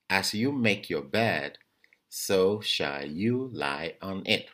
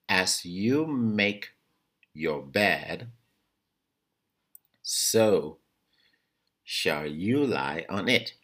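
First: It is said at normal speed. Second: It is said slowly.

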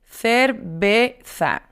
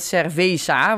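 First: The middle consonant is a b sound. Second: The middle consonant is a v sound. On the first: The speaker calls it right. "Die V is een B" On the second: The speaker calls it wrong. "dan hoor je ook nog die V in cerveza, want zo zeggen wij het dan vaak op zijn Hollands"

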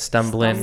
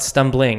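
First: The word is said with a country twang. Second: The word is said in a plain, neutral accent. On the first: The speaker calls it right. "because it's got a bit of a country twang" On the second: The speaker calls it wrong. "it's not stumbling"

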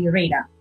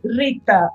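First: It is said with an American accent. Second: It is said with a Portuguese accent.

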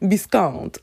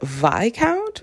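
First: The S in the word is pronounced. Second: The S in the word is silent. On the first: "I still in my head, more often than not, say Viscount" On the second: "no sound, no S"

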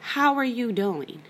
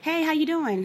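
First: It is asked in a slow, sincere way. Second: It is asked in a quick, casual way.

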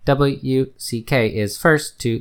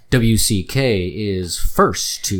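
First: It sounds like a flat, robotic computer voice. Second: It sounds like a polished television news reporter. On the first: "Now I'll try the Google voice" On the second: "This is my news reporter voice"

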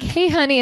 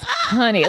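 First: It is said in a light, casual tone. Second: It is said in a firm, serious tone.

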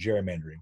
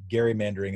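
First: The word begins with a J sound. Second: The word begins with a hard G sound. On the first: It follows the usual modern pronunciation. "instead of gerrymandering" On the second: It follows how the original family name was pronounced. "I also pronounce it gerrymandering"

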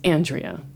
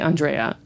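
First: The stress is on the first syllable. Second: The stress is on a later syllable.

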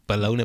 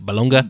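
First: The word ends with an 'ee' sound. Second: The word ends with a 'ga' sound. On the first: This is the usual everyday pronunciation. "that's how we say baloney" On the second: This is how the spelling reads. "when you read baloney"

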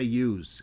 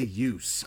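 First: The word ends with a buzzing Z sound. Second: The word ends with a hissing S sound. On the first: The speaker calls it right. "It's a Z sound" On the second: The speaker calls it wrong. "I didn't say use"

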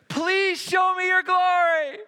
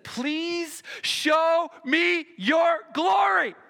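First: It is exclaimed with strong, excited energy. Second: It is said calmly, without exclamation.

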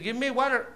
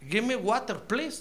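First: It is said in an American accent. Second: It is said in an English accent.

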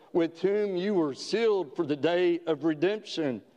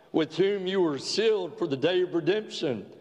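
No difference in how they are said.

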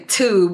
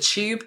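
First: It begins with a plain t sound. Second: It begins with a ch-like sound. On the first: "What we in America would say tube" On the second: "they would pronounce it like a ch sound"

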